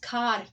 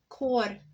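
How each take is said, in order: First: The vowel sounds like ah, English style. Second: The vowel sounds like oh, Glasgow style.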